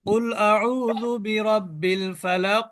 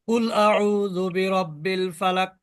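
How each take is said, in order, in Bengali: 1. শেষের q প্রতিধ্বনি সহ ছাড়া পায়। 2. শেষের q কোনো প্রতিধ্বনি ছাড়াই সোজাসুজি থেমে যায়। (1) "কলকলা কিন্তু হলো" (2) "কলকলা কিন্তু হয়নি।"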